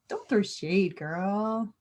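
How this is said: It is said in an easy, relaxed way. The speaker calls it right.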